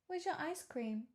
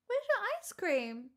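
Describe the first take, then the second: First: Said in the usual way. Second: Much higher, sing-song pet voice. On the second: Real, not acted. Cooing at her dog Pixel about ice cream, high baby talk.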